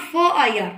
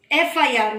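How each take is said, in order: First: फ़ I R with a bare फ़ and no vowel before it; the wrong reading फ़ I R, clipped to a bare फ़. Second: एफ I R with the letter name एफ starting on the vowel; right way. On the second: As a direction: say एफ I R as three letter names, opening on the vowel. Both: Shown as a demonstration. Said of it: "not फ़ I R".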